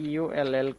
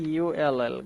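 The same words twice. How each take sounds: The two takes are said the same way.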